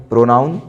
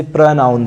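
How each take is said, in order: First: प्रोनाउन with a long O in the first syllable, the common mistake; wrong pronunciation. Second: प्रनाउन with a weak, short first syllable; correct pronunciation. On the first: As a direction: say प्रोनाउन with pro like "go". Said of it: "जो कि गलत है". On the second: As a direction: say प्रनाउन with a quick schwa after pr. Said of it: "हम इसे प्रनाउन पढ़ते हैं". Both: Shown as a demonstration.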